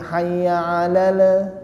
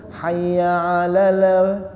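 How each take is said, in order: The two takes are said the same way.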